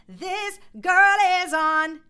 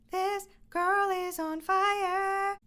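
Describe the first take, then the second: First: Sung, loud, belted line in the talking voice; sung, belt it like everyday speech; sung in speaking voice. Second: Thin, airy sung line pulled off the speech voice; sung, imitate a singer floating it up high; breathy head-voice singing. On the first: Shown as a demonstration. Sung, coach showing the belt in speaking voice. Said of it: "no reason that they shouldn't be singing". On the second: Mock singer switching to a thin singing voice. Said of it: "they go to sing and they say".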